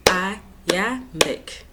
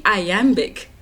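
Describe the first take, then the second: First: "Iambic" in three separate beats, i, am, bic; split into syllables. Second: Said in the usual way. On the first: Shown as a demonstration. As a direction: count out "Iambic" with a gap after each syllable. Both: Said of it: "How many syllables?".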